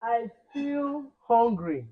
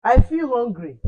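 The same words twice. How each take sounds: First: I feel hungry stretched out slowly; slow drawn model line. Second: I feel hungry said loud and high; louder repeat. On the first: Teacher stretching I feel hungry slowly for pupils. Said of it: "teacher modelling hungry slowly". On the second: Teacher repeating I feel hungry loudly for pupils. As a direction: push it out loud for the class. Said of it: "teacher repeats loudly". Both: Shown as a demonstration.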